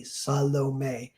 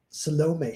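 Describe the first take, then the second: First: Salome said SAH-lo-may, first syllable clear; demonstrating Salome correctly. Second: Salome said suh-LO-may, stressing LO; misplaced stress on Salome. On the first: Director tells actress to listen, Salome as careful SAH-lo-may. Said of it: "Listen to me". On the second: Actress fails the retake, Salome as suh-LO-may. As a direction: lean on the middle of Salome. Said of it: "couldn't do it". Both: Retold or imitated.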